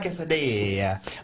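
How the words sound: It is said with an Italian-sounding flourish. The speaker calls it right. "you have to add a bit of flair"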